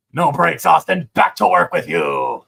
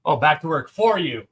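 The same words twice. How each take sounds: First: Loud joking taskmaster order; bossy boss voice. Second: Said in the usual way. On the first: Pretend. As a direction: bark it like a playful foreman. Joking bossy line after laughing.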